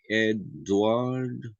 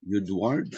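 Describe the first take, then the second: First: "Edward" said slowly as ED-WARD; slow "Edward" with a plain E at the start; diphthong example. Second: "Edward" begun with a yoo sound; tentative "Edward", opening on "you", rising at the end; diphthong pronunciation. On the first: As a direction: split "Edward" into two drawn-out syllables. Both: Shown as a demonstration. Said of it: "U, U as in".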